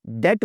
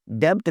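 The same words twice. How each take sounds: First: Said in the usual way. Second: डेब्ट with the b sounded before the t: "debbt"; wrong b sounded. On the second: Shown as a demonstration. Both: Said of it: "डेब्ट नहीं बोलते".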